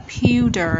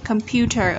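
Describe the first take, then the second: First: COMPUTER's end said slowly as "pyu-der"; American T. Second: Said in the usual way. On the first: Shown as a demonstration. Teacher showing the American version, pewter with T as D. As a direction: soften the T in pewter to a quick D. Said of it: "sang giọng Anh Mỹ là". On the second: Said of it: "chúng ta có thể đọc".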